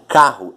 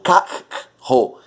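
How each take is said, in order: First: The two letters make a single sound. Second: The two letters are sounded separately. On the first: The speaker calls it right. "Eu digo carro" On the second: The speaker calls it wrong. "Eu não digo carro"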